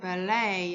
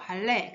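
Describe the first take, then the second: First: The word is said with English pronunciation. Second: The word is said with Korean pronunciation. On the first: "근데 발음은 ballet, 영어로는 할 때는 ballet라고 해요" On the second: "우리가 발레라고 하죠"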